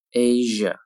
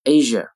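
First: "Asia" a little stretched, evenly said; slightly slow, careful "Asia"; drawn-out model. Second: Said in the usual way. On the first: Shown as a demonstration. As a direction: lengthen "Asia" slightly for learners. Teacher models word slowly, then normally.

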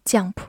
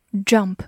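First: "jump" mispronounced with a Chinese-like "jiang" syllable; 错误读音示范. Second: Said in the usual way. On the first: Shown as a demonstration. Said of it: "注意不要读成jump". (把jump错读成“降普”) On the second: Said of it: "注意不要读成".

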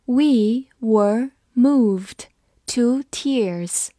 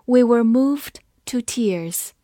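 First: We were moved drawn out word by word; slow reading. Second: Said in the usual way. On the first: Shown as a demonstration. Teacher slowly reading the sentence for students. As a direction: read it slowly and clearly. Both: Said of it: "我们慢读一遍".

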